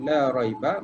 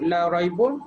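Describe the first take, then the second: First: The final word ends in a short 'a' sound. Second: The final word ends in an 'un' sound. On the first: There is no doubt of any kind at all. The speaker calls it right. "Jadi dibaca raiba" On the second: Some doubt still remains. The speaker calls it wrong. "kalau raibun ada lagi keraguan"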